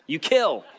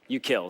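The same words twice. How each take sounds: First: It is said boldly, with strong force. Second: It is said weakly, with little force.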